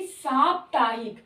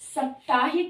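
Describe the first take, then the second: First: The first vowel is long, a lengthened aa. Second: The first vowel is short, as in saptah. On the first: The speaker calls it right. "जब उसमें एक प्रत्यय लगा देते हैं तब उसमें साप्ताहिक हो जाता है" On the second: The speaker calls it wrong. "ऐसे ही साप्ताहिक नहीं"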